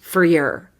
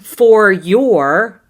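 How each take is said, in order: First: Both words are reduced and run quickly together. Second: Both words are said fully, with clear vowels. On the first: The speaker calls it right. "your is also one of these words that we reduce" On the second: The speaker calls it wrong. "We're not saying"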